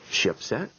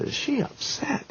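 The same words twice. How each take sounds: First: Said in the usual way. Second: Very high, drawn-out whispery squeal; squeaky disbelief, stretched out; mock incredulous. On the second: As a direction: imitate an aghast friend in a strained, breathy falsetto. Friend aghast, echoing his question.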